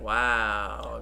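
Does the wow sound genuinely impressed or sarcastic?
genuinely impressed. It sounds genuinely impressed and amazed.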